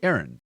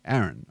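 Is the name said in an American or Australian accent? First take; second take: American; Australian. First: It is said in an American accent. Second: It is said in an Australian accent. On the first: "Americans say Aaron. Same as the girl's name" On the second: "which is how we say Aaron"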